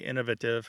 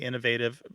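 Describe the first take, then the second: First: It is said the British way. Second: It is said the American way. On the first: "The people in the U K tend to say innovative" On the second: "Americans tend to say innovative"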